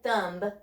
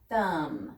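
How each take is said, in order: First: A b sound is pronounced at the end. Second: The word ends on an m sound only. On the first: The speaker calls it wrong. "We don't say thumb" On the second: The speaker calls it right. "The B is silent. It just says mmm"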